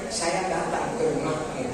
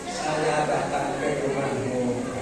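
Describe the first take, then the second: First: The words are articulated clearly. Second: The words are slurred and unclear. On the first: The speaker calls it right. "Jadi yang bagus memang" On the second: The speaker calls it wrong. "tak pada jelas"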